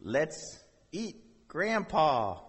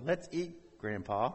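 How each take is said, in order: First: "Let's eat," a pause, then "Grandpa" said as the one spoken to; comma pause. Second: "Let's eat Grandpa" run together, no pause; no comma. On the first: Pastor showing the comma, pause after "eat". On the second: Pastor showing the missing comma, no pause at all. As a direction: glide straight from "eat" into "Grandpa". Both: Shown as a demonstration. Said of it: "Think of the disparity between".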